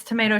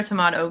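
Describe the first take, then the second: First: "tomato" said to-MAY-to; long A. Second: "tomato" said to-MAH-to; broad A. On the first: Waving off the gif argument, "tomato" as to-MAY-to. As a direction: say "tomato" with an "ay" in the middle. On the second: Waving off the gif argument, "tomato" as to-MAH-to. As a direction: say "tomato" with an "ah" in the middle. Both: Shown as a demonstration. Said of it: "it's tomato, tomato".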